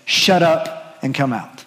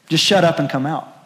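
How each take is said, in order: First: Blunt command. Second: Said in the usual way. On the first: Retold or imitated. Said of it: "what Jesus does is basically in Greek say". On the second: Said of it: "it's very simple".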